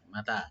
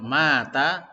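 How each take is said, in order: First: The second vowel is long, the first short. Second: The first vowel is long, the second short. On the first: "Yang panjang yang belakang" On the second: "Kalau mata artinya mati"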